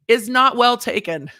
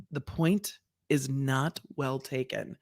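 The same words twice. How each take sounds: First: "not well taken" high, loud and slow; emphatic ruling. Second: "not well taken" low, soft and very slow; dry, measured shade from the bench; judge sass. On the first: Acted. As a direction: land "not well taken" as a public put-down. Reading the judge's cutting ruling. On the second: Retold or imitated. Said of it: "that is Judge Sass".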